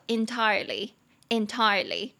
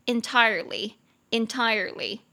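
First: "entirely" in British English, no R sound; British pronunciation. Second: "entirely" in American English, with a sounded R; American pronunciation. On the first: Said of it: "这个是英式的发音". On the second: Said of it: "我念一下美式的是". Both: Shown as a demonstration.

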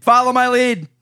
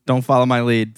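First: High mock command. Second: Said in the usual way. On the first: Shown as a demonstration. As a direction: sing out "Follow my lead" high.

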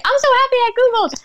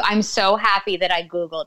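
First: Much higher, fast, squealy mock delight; mock gushing. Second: Said in the usual way. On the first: Mocking a phrase nobody would ever say, in giddy fake delight. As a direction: gush like a giddy fan, rattling it off. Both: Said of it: "you're probably never gonna hear anyone say".

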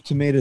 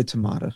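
First: "tomato" with a long A, tuh-MAY-to; long-A pronunciation. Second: "tomato" with a broad A, tuh-MAH-to; broad-A pronunciation. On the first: Host shrugging off a pronunciation question, "tomato" as tuh-MAY-to. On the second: Host giving the other variant, "tomato" as tuh-MAH-to. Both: Shown as a demonstration. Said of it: "it's like tomato, tomato".

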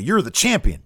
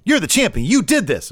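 First: Said in the usual way. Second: High, louder hammed-up conviction; imitated pep talk. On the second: Show host urging the meek champion on, imitated fired-up conviction. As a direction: mimic someone insisting with rising conviction. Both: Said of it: "have a little bit more conviction".

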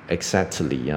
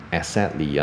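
First: "exactly" with a vowel after the t, exact-uh-ly; wrong pronunciation. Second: "exactly" with the k lost, es-sat-ly; wrong pronunciation. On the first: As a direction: put an extra "tuh" inside "exactly". (错误示范"exactly"，t后多加母音) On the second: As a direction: say "exactly" with s in place of x. (错误示范"exactly"，x念成s) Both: Shown as a demonstration. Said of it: "不要再念成".

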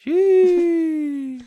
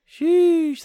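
First: High squeaky drawn-out sheesh; mock squeal. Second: Laughing squeal. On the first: Repeats the mock exclamation. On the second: Pretend. Third sheesh, laughing.

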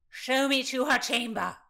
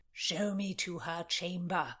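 First: Put-on high, loud drunken demand; insistent shout. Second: Slow, drawn-out lordly order; drunken demand. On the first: Rutland refused by Constance, shouting his demand. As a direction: shout the order, out of patience. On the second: Rutland to Constance at the stairs, slow demand. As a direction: order it slowly, in drink. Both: A narrator's reading.

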